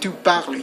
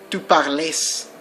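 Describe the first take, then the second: First: The word ends cleanly on the L sound. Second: The word ends with an extra sound after L. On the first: The speaker calls it right. "You end with that L sound" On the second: The speaker calls it wrong. "You don't say you, tu parles. That's wrong"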